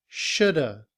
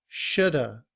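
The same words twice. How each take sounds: Both takes have the same delivery.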